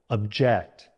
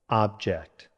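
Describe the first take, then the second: First: The stress is on the second syllable. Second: The stress is on the first syllable. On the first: It means to disagree. "Stress on the second syllable" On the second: It names a physical thing. "Stress on the first syllable"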